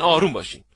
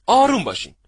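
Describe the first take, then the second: First: Said in the usual way. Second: آروم said higher and louder, falling; stressed calm down. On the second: Shown as a demonstration. Coach telling party-goers to stay calm, punching آروم. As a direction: hit the word آروم up high.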